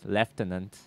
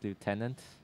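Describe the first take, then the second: First: It is said with a British pronunciation. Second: It is said with an American pronunciation.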